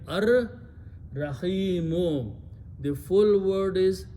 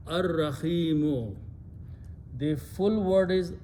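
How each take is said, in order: No difference in how they are said.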